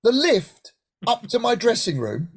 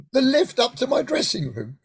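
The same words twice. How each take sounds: First: Rising disbelieving question; echoing the stage doorman in amazement; incredulous question. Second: Higher, awed statement, stress on lift; savouring the news in delight; amazed realisation. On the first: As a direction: ask it as if you misheard. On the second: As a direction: let it sink in with wonder. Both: Retold or imitated. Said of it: "The what?".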